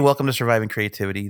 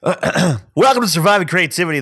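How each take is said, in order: First: It is said with moderate, in-between energy. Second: It is said with over-the-top radio energy.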